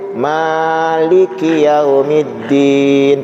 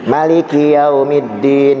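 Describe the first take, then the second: First: The first vowel of Maliki is drawn out long. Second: The first vowel of Maliki is kept short. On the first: God is the owner of the Day of Judgment. "panjang namanya" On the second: God is the king of the Day of Judgment. "membacanya pendek"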